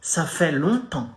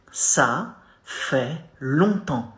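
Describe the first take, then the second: First: Ça fait longtemps said at normal speed with nasal longtemps; French demo at natural pace; French pronunciation demo. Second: Ça fait longtemps drawn out slowly, each syllable separated; slow, careful teaching model; slow demo. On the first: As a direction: clear model of Ça fait longtemps. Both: Shown as a demonstration. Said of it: "You say".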